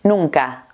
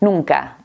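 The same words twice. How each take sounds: The two takes are said the same way.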